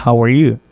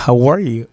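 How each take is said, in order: First: "how are YOU", emphasis at the end; stress on YOU. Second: Emphasize "are" in "how are you"; "how ARE you", falling after the verb; stress on ARE. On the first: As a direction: lift the voice on YOU, the last word. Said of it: "ou bien monter sur you". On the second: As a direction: lift ARE, let "you" fall away. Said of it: "monter votre sur are". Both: Shown as a demonstration.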